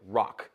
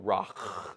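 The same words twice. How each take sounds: First: The final consonant stops the breath abruptly. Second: The final consonant continues with audible breath. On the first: The speaker calls it right. "you have to stop it. It stops" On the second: The speaker calls it wrong.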